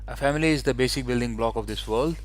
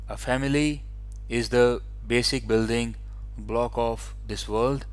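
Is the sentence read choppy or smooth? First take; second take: smooth; choppy. First: It flows without pauses until the sentence end. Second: There are pauses after nearly every word. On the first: The reader sounds more fluent. The speaker calls it right. "you only look at the full stops and you try to speak there" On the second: The reader is hesitant and lacks fluency. The speaker calls it wrong. "they will pause after every word or every two words"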